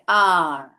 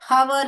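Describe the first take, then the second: First: The word begins with no h sound. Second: The word begins with an h sound. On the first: The speaker calls it right. "यहाँ पे जो हैच है वो silent है" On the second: The speaker calls it wrong. "हवर नहीं बोलना चाहिए"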